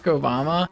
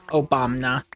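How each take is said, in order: First: Said in the usual way. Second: Obama with an extra N, "Obamna"; jokey mispronunciation. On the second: Pretend. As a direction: say Obama low as "oh-BAHM-nah".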